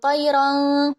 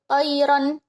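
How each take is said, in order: First: The final n sound is blurred, not clear. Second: The final n sound is pronounced clearly. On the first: The speaker calls it wrong. "bukan qayrang" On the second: The speaker calls it right. "tapi qayran ababil"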